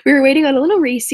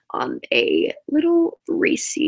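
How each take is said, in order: First: Fast and louder, rushing through "on a little Reese"; quick, louder retake. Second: Slow, drawn out on "little Reese", stretching "little"; drawn-out build-up. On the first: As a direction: snap back into the story quickly and louder. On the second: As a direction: savor "on a little Reese" slowly like a teaser. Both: Shown as a demonstration. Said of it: "Back to where we were".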